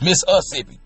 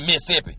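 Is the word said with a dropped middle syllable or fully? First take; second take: fully; dropped syllable. First: All syllables of the word are pronounced. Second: The middle syllable is dropped from the word. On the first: This is how locals from the state say it. The speaker calls it right. "It's Mississippi, We say Mississippi" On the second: This is an overdrawn movie version of the accent. The speaker calls it wrong. "not Mississippi, M I S S apostrophe P P I"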